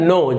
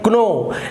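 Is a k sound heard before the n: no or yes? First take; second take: no; yes. First: The word begins with an n sound. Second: The word begins with a k sound. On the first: The speaker calls it right. "लेकिन इसका उच्चारण होता है नो" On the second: The speaker calls it wrong. "आप इसे क पढ़ेंगे क्नो"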